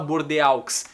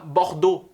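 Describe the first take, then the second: First: Each letter of the ending is sounded separately. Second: The ending is a single 'o' sound. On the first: The speaker calls it wrong. "Não se fala Bordeaux" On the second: The speaker calls it right. "Então se fala Bordeaux"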